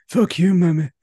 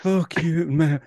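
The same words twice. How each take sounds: First: High, loud mock Irish outburst; Irish accent. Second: Put-on failed Irish accent. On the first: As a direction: spit it out in a broad Irish accent. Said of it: "that was more Irish than". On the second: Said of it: "I can't do it now".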